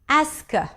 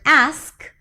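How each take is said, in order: First: An extra vowel sound is added between consonants. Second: It is said without any extra vowel sound.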